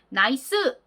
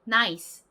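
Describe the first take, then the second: First: A vowel sound follows the final s. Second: The final s is only a breathy hiss. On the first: The speaker calls it wrong. "콩글리쉬로 발음하는 것처럼 나이스 이렇게 으 발음이 난다라면" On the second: The speaker calls it right. "바람 빠지는 소리가 날 뿐이에요"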